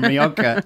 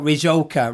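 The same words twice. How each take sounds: First: Rioja the Spanish way, J as a throaty H or K; correct Rioja. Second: Rioja with an English J, "ree-joker"; mispronounced Rioja. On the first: Shown as a demonstration. Wine seller showing how the wine should be said, correct Rioja. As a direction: say Rioja as "ree-okka", no English J. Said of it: "rather than Rioja". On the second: Retold or imitated. Wine seller mimicking customers who misread the label, mispronounced Rioja. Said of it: "or Rioja rather than Rio".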